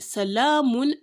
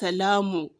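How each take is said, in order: First: The word ends with an 'n' sound. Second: The word ends on a vowel. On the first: The speaker calls it right. "On this mim is dommatain" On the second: The speaker calls it wrong. "and not just"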